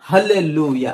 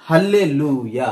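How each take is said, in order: The two takes are said the same way.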